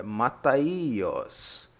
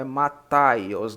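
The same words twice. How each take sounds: First: "Mataios" slowly, stress on a separate long I; correct pronunciation. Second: "Mataios" run together, stressed on TAI; wrong pronunciation. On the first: Teacher correcting the name Mataios, slow with a long separate I. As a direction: stretch "Mataios" as ma-ta-I-os. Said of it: "É Mataios". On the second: Teacher showing how not to say Mataios, stress on TAI. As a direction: say "Mataios" with "tai" as one loud syllable. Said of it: "Não é Mataios, não". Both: Shown as a demonstration.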